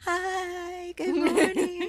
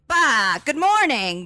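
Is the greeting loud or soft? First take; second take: soft; loud. First: The greeting is soft and gentle. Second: The greeting is loud and abrupt.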